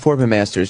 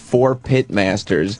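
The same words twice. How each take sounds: First: The words are mumbled and run together. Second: The words are said clearly and separately. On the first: The number is hidden so it goes unnoticed. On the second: The number is plainly noticeable.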